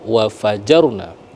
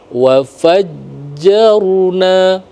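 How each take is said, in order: First: The j sound is short and single. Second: The j sound is held doubled. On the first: The speaker calls it wrong. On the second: The speaker calls it right. "Karena di huruf jim ada tasdid"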